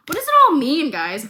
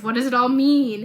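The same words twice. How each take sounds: First: High and loud, mock dramatic; milk the innuendo for the viewers; exaggerated wondering. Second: Said in the usual way. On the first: Real, not acted. Teasing the audience.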